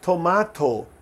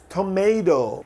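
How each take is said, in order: First: It is said in a British accent. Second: It is said in an American accent. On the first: "Os britânicos falam" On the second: "os americanos"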